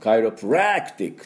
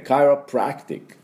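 First: The 'prac' syllable carries strong stress. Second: The 'prac' syllable carries light stress. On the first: The speaker calls it wrong. "そんなに強く、カイロプラクティックっていうふうに言いませんので" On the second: The speaker calls it right. "ちょっと軽めに。"

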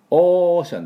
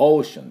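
First: The first vowel is a flat long 'o'. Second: The first vowel glides like 'oh-w'. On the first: The speaker calls it wrong. "オーシャンじゃありません。" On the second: The speaker calls it right. "オーシャンです。"

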